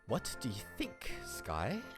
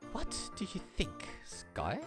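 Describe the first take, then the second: First: It is said in a normal, lower voice. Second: It is said in a high-pitched put-on voice.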